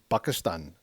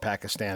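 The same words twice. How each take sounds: First: It is said without a p sound. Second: It is said with a p sound. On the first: This is how Arabic speakers would say it. "if an Arabic pronunciation it would be like" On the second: This is the everyday English way to say it. "let's just call it Pakistan and be done with it"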